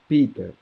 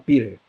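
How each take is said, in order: First: It is said with a British accent. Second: It is said with an American accent. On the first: "o britânico ele é mais, mais próximo à fonética. Então" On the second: "O americano fala"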